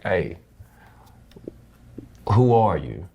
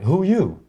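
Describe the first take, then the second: First: Gentle, caring ask; a father's caring question, unhurried; concerned, loving question. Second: Sharp, challenging "Who you?", pitched high; confrontational. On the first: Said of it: "loving, concerning, like". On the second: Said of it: "Not like". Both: Retold or imitated.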